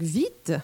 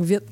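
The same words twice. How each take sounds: First: «vite» with a held, tense I, the France way; long French I. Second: «vite» with a short, lax I; short Quebec I. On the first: Teacher imitates the French leaning on the I. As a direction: lean on the I of «vite». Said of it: "les Français vont prendre le temps d'appuyer sur le I". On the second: Teacher shows how Quebecers say vite with a lax I. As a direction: clip the I in «vite» short and open. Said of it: "nous, on le dit vite". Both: Shown as a demonstration.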